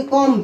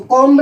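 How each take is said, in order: First: कॉम्ब with a silent b, ending on m; correct pronunciation. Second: कॉम्ब with the b sounded at the end; wrong pronunciation. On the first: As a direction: say कॉम्ब as kom, no b sound. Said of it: "बी silent रहता है". (कॉम्ब का सही उच्चारण, बी silent) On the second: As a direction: say कॉम्ब wrongly, b clearly spoken. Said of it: "इसको कॉम्ब नहीं बोलेंगे". (कॉम्ब का गलत उच्चारण, बी बोलते हुए) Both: Shown as a demonstration.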